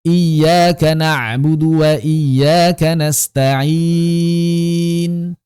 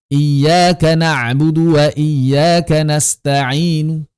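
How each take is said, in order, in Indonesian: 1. Konsonan di akhir berhenti tanpa bunyi vokal. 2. Vokal di akhir diucapkan samar dan singkat. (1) "ismam, bagaimana sukunkan kemudian monyongkan" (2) "Juga bisa raum"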